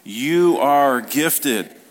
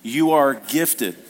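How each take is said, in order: First: It is said with gusto and more energy. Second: It is said plainly, with ordinary energy.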